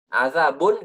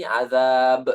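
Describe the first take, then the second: First: "azabun" with the final "un" sounded; full tanwin ending. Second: "azab" stretched, closed on the b; pausal ending. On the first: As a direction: end "azabun" on an audible n. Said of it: "kata azab kita baca azabun". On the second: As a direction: stop on a long "azab" without the "un". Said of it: "kita berhenti azab". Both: Shown as a demonstration.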